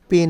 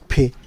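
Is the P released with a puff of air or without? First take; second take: without; with. First: The P has no puff of air. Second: The P has a clear puff of air. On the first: The speaker calls it wrong. "পি না" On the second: The speaker calls it right. "পর সাথে আমরা একটু বাতাস বের করব"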